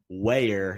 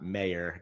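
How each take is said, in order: First: The name begins with a W sound. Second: The name begins with an M sound. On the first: The speaker calls it right. "my pronunciation of Ben Wayer" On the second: The speaker calls it wrong. "not Mayer. Got my W's and M's mixed up"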